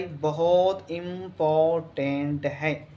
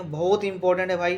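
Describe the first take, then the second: First: "बहुत important" drawn out very slowly, sound by sound; slow emphatic repeat. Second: Said in the usual way. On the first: Real, not acted. Teacher warning students about a key question, slow and emphatic. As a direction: stretch every syllable of "important" for weight.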